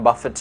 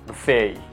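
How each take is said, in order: First: The word ends with a clear T sound. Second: The word ends without any T sound. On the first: The speaker calls it wrong. "bukan Buffett ya" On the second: The speaker calls it right. "di T-nya nggak dibaca"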